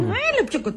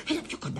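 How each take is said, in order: First: High, impatient urging; insistent. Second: Hushed, voiceless whisper; conspiratorial whisper. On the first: Woman urges a hesitant man closer, insistent and high. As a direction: coax him sharply in a raised pitch. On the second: Woman beckons a man to share a secret, whispering. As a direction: whisper to draw him closer. Luring him close for a secret. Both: Acted.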